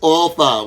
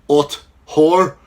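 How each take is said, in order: First: The th is said as one sound. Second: The t and h are split into two sounds. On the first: The speaker calls it right. "another one we've got is author" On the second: The speaker calls it wrong.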